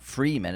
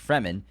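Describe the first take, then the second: First: The first vowel is a long ee sound. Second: The first vowel is a short e sound. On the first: The speaker calls it wrong. "It's not Freeman" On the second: The speaker calls it right. "It's one E"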